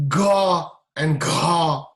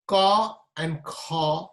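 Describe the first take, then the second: First: "ga and ga" very slow and louder, fully voiced; drawn-out "ga" with a strong buzz. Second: "ka and kha" very slow, with no voicing; unvoiced ka and kha. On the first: Teacher contrasting the consonants for students, slow and voiced. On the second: Teacher contrasting the consonants for students, very slow. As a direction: stretch out "ka" and "kha" without buzz. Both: Shown as a demonstration.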